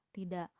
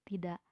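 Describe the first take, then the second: The two takes are said the same way.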